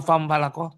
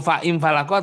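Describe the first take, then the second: First: The vowel after fa is dropped and merged. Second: The vowel after fa is kept as a syllable. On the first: The speaker calls it right. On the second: The speaker calls it wrong.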